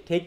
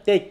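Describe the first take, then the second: First: ঠেক with a strong puff of air after the ঠ; ঠেক said with a heavily aspirated ঠ, as the mistake; wrong aspirated version. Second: টেক with a clean ট and no puff of air; টেক said crisply with an unaspirated ট, as the right form; correct unaspirated version. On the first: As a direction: push a breathy burst on the opening ঠ of ঠেক. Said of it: "ঠেক তো হবে না". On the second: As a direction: release the ট of টেক without any breath. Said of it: "টেকে বলা হচ্ছে টেক". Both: Shown as a demonstration.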